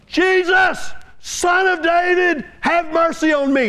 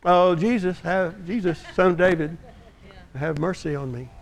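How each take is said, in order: First: Pleading cry for mercy. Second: Soft, low, half-hearted plea; mock the meek church prayer; timid polite prayer. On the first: Retold or imitated. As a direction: call out to him across the road. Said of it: "as he begins to cry out". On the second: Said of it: "what we would do in the church today is we say".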